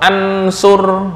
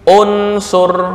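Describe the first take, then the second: First: The word begins with an a vowel. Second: The word begins with a u vowel. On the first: The speaker calls it wrong. "atau ansur" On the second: The speaker calls it right. "hamzah wasal dibaca dhammah u"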